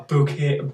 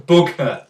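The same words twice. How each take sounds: First: Said in the usual way. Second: "bokeh" as BOH-kuh, first syllable stressed; corrected pronunciation. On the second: Shown as a demonstration. Photo tutor teaching the blur's name, corrected pronunciation. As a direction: say "bokeh" with a short, falling second syllable. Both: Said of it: "you've got to pronounce it like bokeh".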